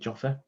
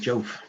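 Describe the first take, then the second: First: The name is said with two syllables. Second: The name is said with one syllable. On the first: The speaker calls it right. "I think you call it Joffa" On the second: The speaker calls it wrong. "I used to call it Jof"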